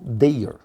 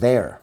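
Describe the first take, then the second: First: Every letter of the word is sounded out. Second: The word sounds exactly like 'there'. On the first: The speaker calls it wrong. "todas as letras nessa palavra deveriam ser pronunciadas" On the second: The speaker calls it right. "deve ser pronunciado como there"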